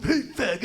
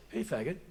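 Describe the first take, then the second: First: High, louder mock heckle; exaggerated yelled taunt. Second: Said in the usual way. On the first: Comic shows how the stranger didn't say it, exaggerated taunt. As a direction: sing it out as an over-the-top jeer. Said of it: "it wasn't like the guy's, like, going". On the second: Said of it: "It was just like".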